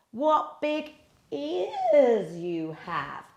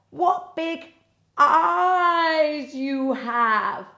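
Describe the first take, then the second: First: Put-on slow, higher little girl; wondering little girl. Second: Put-on very slow, higher girl's voice; wondering little girl. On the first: Girl at the bed, slow wondering question. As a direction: ask slowly, in wonder. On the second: Girl at the bed, very slow wondering. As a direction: stretch it out in wonder. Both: A narrator's reading.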